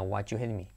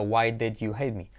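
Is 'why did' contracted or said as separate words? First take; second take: contracted; separate. First: Why and did are run together as why'd. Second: Each word is said separately and fully. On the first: The speaker calls it right. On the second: The speaker calls it wrong. "casi nadie dice así de separado"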